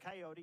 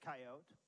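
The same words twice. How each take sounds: First: It is said with the outsider's pronunciation. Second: It is said with the local Montana pronunciation. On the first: The speaker is not from Montana. The speaker calls it wrong. "It's not a coyote" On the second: The speaker is from Montana. The speaker calls it right. "it's a coyote"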